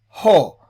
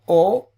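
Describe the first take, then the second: First: The word starts with an h sound. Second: The word starts with a bare vowel. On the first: The speaker calls it right. "it's pronounced as ho" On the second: The speaker calls it wrong. "not o"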